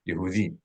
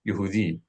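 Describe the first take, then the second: First: The first vowel is a short unstressed oo sound. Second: The first vowel is a short unstressed oo sound.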